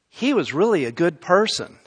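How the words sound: It sounds like a surprised, fresh realization. The goodness is only now being recognized. "they're saying it in such a way to indicate they never saw that before"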